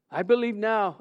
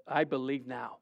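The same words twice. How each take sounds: First: Desperate plea. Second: Softer, lower whispered-feel plea of I believe now; quiet plea. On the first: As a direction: beg the Lord for heaven. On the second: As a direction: murmur it to yourself in awe. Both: Retold or imitated. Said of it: "before God and saying".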